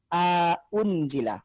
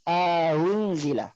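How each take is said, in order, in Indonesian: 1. Hamzah kedua diucapkan penuh dan tegas. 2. Hamzah kedua dilunakkan, tidak diucapkan penuh. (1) "bukan aunzila" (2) "dibaca aunzila"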